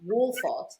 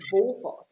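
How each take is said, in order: First: The name begins with a W sound. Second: The name begins with a V sound. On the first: The speaker calls it wrong. "it's not Wolfart" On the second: The speaker calls it right. "it's Volfart"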